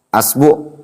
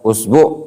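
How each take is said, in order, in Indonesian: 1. Kata ini diawali dengan vokal a. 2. Kata ini diawali dengan vokal u. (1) "Boleh antum antum fathah" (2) "Boleh antum dhammah"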